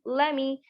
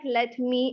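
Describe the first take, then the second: First: The words blend into one reduced word. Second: Both words are said fully and separately. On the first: "It seems like [name]" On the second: "It's not like let me"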